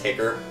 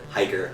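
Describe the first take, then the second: First: The first vowel is a short 'ih' sound. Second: The first vowel is a long 'eye' sound. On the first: The speaker calls it wrong. "I used to pronounce that as, as hicker" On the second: The speaker calls it right. "Hiker, I know"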